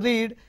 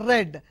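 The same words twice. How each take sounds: First: It is pronounced as the present-tense form. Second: It is pronounced as the past-tense form. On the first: The action happens now or habitually. "if it is used as in the present tense, it is a read" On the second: The action already happened. "If it is used as a past word or past form, it is called read"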